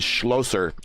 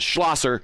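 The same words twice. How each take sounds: First: The name is pronounced the German way. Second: The name is pronounced the American way. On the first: "that's the German way of saying it" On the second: "Schlosser is the American way of saying it"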